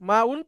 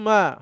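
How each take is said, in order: First: The word ends with an 'un' sound. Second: The word ends with a bare 'a' sound. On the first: The speaker calls it wrong. "তো ওটাকে জবর দিয়ে বলতে হবে" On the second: The speaker calls it right. "শুধু আপনার জবরও দরকার নেই, আপনি মা বলবেন"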